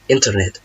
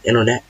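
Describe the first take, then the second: First: The T after the N is pronounced. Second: The T after the N is silent. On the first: "It's not wrong if you said internet" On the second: "it will be better if you said internet"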